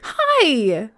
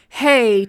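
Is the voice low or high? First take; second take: high; low. First: It is said in a high, squeaky voice. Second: It is said in a normal, lower voice.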